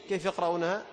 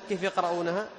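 No difference in how they are said.

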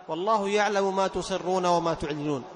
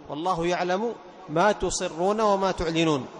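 The two takes are said the same way.

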